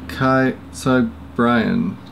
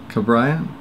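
First: "Kai Cabrian" said slowly and hesitantly, guessing the sounds; mangled name. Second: "Cabrian" tried again with a questioning rise; unsure retry. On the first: Reading a contributor's name aloud, slow and unsure. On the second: Retrying the name for the contributor, questioning rise. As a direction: ask "Cabrian?" testing the sound. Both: Shown as a demonstration. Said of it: "butchered that one".

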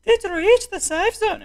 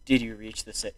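First: High-pitched, badly faked Irish accent. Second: Said in the usual way. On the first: Game host asking players, bad Irish accent. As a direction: put on a terrible squeaky Irish accent. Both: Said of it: "I forgot I gave him an Irish accent".

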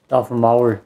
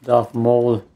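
First: "Maul" said the German way, rhyming with "owl"; German pronunciation. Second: "Maul" said the English way, rhyming with "mall"; English pronunciation. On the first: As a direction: Darth "Maul" with a German "ow" vowel. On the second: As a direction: Darth "Maul" with an English "aw" vowel. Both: Shown as a demonstration. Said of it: "Maul would be the German pronunciation".

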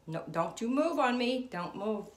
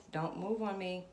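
First: Loud, high urgent plea; loud pleading command. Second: Said in the usual way. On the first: Real, not acted. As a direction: beg it loudly not to move. Pleading with the pendulum.

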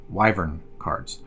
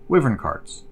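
First: "Wyvern" said slowly with a long i, as in "wife". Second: "wyvern" said with a short i, as in "give". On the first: Host correcting the card name, slow long-i "Wyvern". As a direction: say "Wyvern" as WHY-vern, drawn out. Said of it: "the correct pronunciation of this word is wyvern". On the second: Host first naming the cards, short-i "wyvern". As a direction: say "wyvern" as WIV-ern. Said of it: "I tried to look up the pronunciation". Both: Shown as a demonstration.

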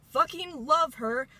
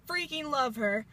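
First: "Fucking love her" said slow and louder, leaning hard on "love"; emphatic swear. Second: Said in the usual way. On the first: Real, not acted. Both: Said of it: "excuse my language".

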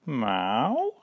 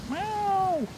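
First: Questioning cat meow, rising at the end. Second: Very high, drawn-out meow; wailing cat. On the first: Cat answering boy asking if it's afraid, cat meow. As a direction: meow with an upward lilt. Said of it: "said the cat". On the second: Frightened cat answering boy from wet roof, wailing. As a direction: wail it high, falling at the end. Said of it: "wailed the cat". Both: A narrator's reading.

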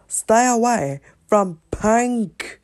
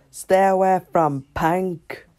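First: Higher, slow and insistent, STAY leaned on; repeated warning. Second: Said in the usual way. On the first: Acted. Speaker repeats the order to stay away from Pink, slower and higher. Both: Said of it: "I said".

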